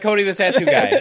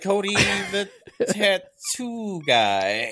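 First: It is said plainly and confidently. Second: It is said hesitantly, with no confidence.

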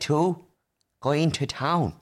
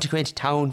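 First: It is spoken slowly and drawn out. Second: It is spoken at an ordinary speed. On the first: "slowing it down makes it sound sexy" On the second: "that's me saying that at regular speed"

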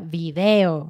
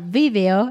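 First: It is said the way Latin Americans say it. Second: It is said the way Spaniards say it.

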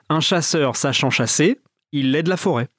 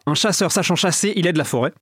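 First: It is said at a normal pace. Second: It is said quickly.

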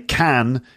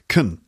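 First: The word has a strong, full vowel. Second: The word has a weak, reduced vowel. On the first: The word is emphasized. "We would say can if you're emphasizing it" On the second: The word is unstressed in the middle of a sentence. "It can be pronounced as with a weak form"

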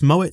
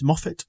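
First: The name is said without an f sound. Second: The name is said with an f sound.

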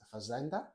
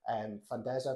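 First: The name has 'zen' then 'da' in the middle. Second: The name has 'n' then 'de' in the middle. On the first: The speaker calls it right. "my girlfriend has corrected me saying it's Fazenda" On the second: The speaker calls it wrong. "I'm not sure how you pronounce that actually"

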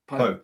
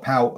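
First: The vowel is a plain 'oh' sound. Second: The vowel is an 'ow' sound. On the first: The speaker calls it right. "it's a French pronunciation" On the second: The speaker calls it wrong. "It's not Pow like Bao"

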